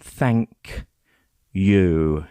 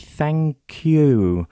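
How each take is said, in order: First: The two words are said separately, with a break. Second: The two words run together as one word. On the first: The speaker calls it wrong. "more than thank you" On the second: The speaker calls it right. "it almost sounds like one word, maybe thank you"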